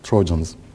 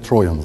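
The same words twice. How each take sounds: First: The word is pronounced the English way. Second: The word is pronounced the German way. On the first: "But Trojans" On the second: "if I were in a German teaching university, I would say Trojans"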